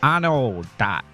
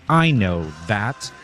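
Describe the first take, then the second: First: It is said in a Pittsburgh accent. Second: It is said with a standard th sound.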